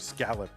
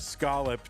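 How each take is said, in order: First: Scallop is pronounced a non-New England way. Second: Scallop is pronounced the New England way. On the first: The speaker is not from New England. "the sane people say scallop" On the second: The speaker is from New England. "number one is the New England version"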